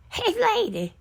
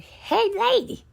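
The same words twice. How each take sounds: First: High calling out, falling at the end; imitating a holler. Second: High, loud calling out for the lady; imitating a holler. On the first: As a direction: holler it again, high and insistent. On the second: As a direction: call across the house in a high hollering voice. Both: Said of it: "started hollering".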